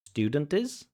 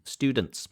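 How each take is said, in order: First: An extra vowel is inserted before the final s. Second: The final consonants are joined with no extra vowel. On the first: The speaker calls it wrong. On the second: The speaker calls it right.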